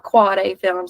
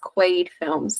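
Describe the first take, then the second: First: The name is two syllables, 'quad' then 'A'. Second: The name is one syllable, rhyming with 'made'. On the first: The speaker calls it wrong. "not Quad A Films" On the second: The speaker calls it right. "correct them and say it is Quaid Films"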